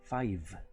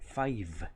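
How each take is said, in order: No difference in how they are said.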